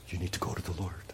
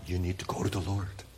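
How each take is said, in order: First: Hushed, urgent repeat; whispered plea. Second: Said in the usual way. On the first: Real, not acted. Pastor pleading softly with the congregation, whispered. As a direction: lean in and whisper it.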